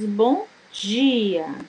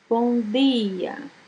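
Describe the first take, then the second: First: Dia starts with a j-like affricate sound. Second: Dia starts with a plain d sound. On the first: This is how it is said in Salvador. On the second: This is how it is said outside Salvador.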